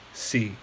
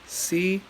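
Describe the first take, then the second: First: The pitch starts low and falls lower. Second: The pitch stays high and level. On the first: "low falling" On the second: "high flat tone"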